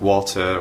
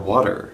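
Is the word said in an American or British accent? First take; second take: British; American. First: It has a British accent with a clear T. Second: It has an American accent with a flapped T. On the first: "in a more proper British sounding dialect" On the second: "if you can pronounce English like an American"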